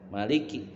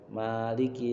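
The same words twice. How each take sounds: First: The first vowel is kept short. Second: The first vowel is held long. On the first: Ruling through authority. "pendek tuh" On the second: Ruling through ownership. "panjang kan, dua harokat kan"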